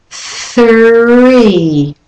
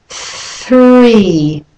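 No difference in how they are said.

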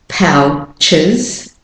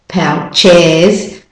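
First: The second syllable has a weak schwa vowel. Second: The second syllable has a full, stressed vowel. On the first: The speaker calls it right. "it's pronounced as the schwa sound" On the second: The speaker calls it wrong. "we're not saying couches, pouches"

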